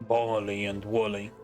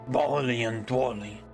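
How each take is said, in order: The two takes are said the same way.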